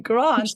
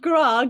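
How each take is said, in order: First: The final 'nt' sound is fully pronounced. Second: The final 'nt' sound is dropped entirely. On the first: The speaker calls it right. "Just say the next two" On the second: The speaker calls it wrong. "the Aussies managed to call him Gra"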